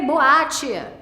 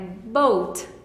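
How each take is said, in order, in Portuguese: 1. O e A são ditos como vogais separadas. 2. O e A formam uma única vogal. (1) "eu quero ler O A, eu quero ler boate" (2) "Não, é boat"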